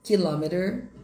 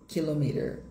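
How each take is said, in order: First: "Kilometer" as "ki-LAH-me-ter"; American "Kilometer", strong second syllable; American pronunciation. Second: "kilometer" as "kilo-MEE-ter"; British "kilometer", long "mee"; British pronunciation. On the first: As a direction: stress "lo" in "Kilometer", ending raised. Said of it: "no inglês americano". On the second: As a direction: stress "me" in "kilometer", falling ending. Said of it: "no inglês britânico". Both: Shown as a demonstration.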